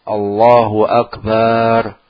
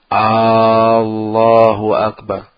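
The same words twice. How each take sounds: First: The final syllable bar is drawn out long. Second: The first vowel of Akbar is drawn out long. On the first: It changes the word into an unrelated meaning. "memanjangkan bar-nya" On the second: It turns the phrase into a question. "memanjangkan A-nya"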